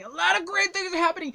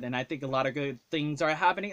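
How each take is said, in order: First: High, loud falsetto exclaim; squeaky high voice. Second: Said in the usual way. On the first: Shown as a demonstration. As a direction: jump up into a silly high voice. Repeats the line in a new voice.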